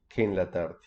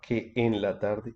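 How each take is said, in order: First: Que and en merge into one syllable. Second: Que and en are said as separate syllables. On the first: The speaker calls it right. "on dit qu'en la tarde" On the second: The speaker calls it wrong. "on ne dit pas que en la tarde"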